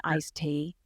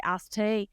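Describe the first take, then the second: First: "iced tea" carefully enunciated with little Southern accent; careful, less accented. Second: Thick Southern drawl on "iced tea"; Southern accent. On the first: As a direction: say "iced tea" with a clear long I and "tee". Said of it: "consciously think to speak with a little less". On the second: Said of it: "speak with a little less of an accent". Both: Shown as a demonstration.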